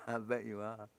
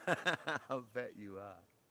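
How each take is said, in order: First: Said in the usual way. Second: Slow, drawn out through laughter; laughing tease. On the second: Real, not acted. Streamer teasing a viewer about being pale, slow and laughing.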